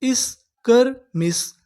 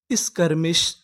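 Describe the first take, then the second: First: Very slow, each syllable drawn out; इस्कर्मिश stretched syllable by syllable. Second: Said in the usual way. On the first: Shown as a demonstration. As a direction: sound out इस्कर्मिश slowly. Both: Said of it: "हमारी पूरी meaning क्या बनी".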